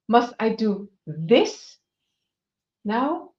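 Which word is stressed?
this. The stress falls on the word this.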